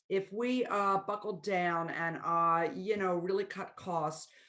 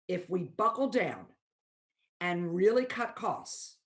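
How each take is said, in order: First: Filler sounds like uh fill the gaps. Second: Silent pauses replace the filler sounds. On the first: The speaker calls it wrong. "how something might sound" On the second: The speaker calls it right. "what if I change that"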